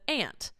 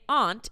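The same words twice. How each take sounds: First: It is said with an American accent. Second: It is said with a British accent.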